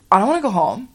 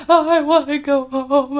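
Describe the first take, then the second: First: Lightly mock-indignant denial; cocky. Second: High, loud, drawn-out mock wail; crying. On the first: Girl denies last night to the counselor, lightly cocky. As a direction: brush it off like a cocky kid. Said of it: "could not be cockier". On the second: Homesick girl wails to the counselor, mock crying. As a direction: imitate a kid bawling to go home. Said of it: "with her crying".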